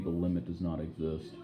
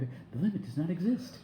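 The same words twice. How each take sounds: First: It is said flatly in a monotonous voice. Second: It is said enthusiastically in a very high voice. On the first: "in very like monotonous voice" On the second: "in this very enthusiastic voice and very high"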